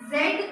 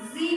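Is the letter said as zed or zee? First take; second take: zed; zee. First: The letter is said ending in a d sound. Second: The letter is said ending in an ee sound. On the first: The speaker calls it wrong. "जो proper इसका pronunciation है उसको हम जेड नहीं कहते हैं" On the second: The speaker calls it right. "जेड को अब जी कहा जाता है"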